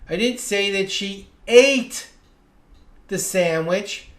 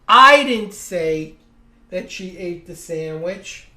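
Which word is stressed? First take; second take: ate; I. First: The stress falls on the word "ate". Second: The stress falls on the word "I". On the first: She did something else with the sandwich. "Maybe she juggled it or gave it to someone" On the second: Someone else said it. "Someone said it, but it wasn't me"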